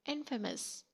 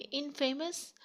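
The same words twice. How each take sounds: First: "इनफेमस" as IN-fuh-mus; unstressed fame. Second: "इनफेमस" as in-FAY-mus; mispronounced "इनफेमस", like in plus famous; wrong pronunciation. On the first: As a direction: say "इनफेमस" with a short weak middle. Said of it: "फेम को आपने इतना stress नहीं करना". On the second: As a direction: say "इनफेमस" high, stressing a long fay. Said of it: "गलत है". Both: Shown as a demonstration.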